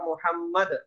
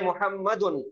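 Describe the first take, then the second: First: The word stops on 'd' with an echoing bounce. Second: The word ends with an added 'un' sound. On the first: This is the form used when stopping on the word. "वहां पे रुकेंगे साकिन करेंगे तो वो हो जाता मुहम्मद, दाल पे आवाज टकराती" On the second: This is the full form of the word. "मुहम्मद असल में है मुहम्मदुन"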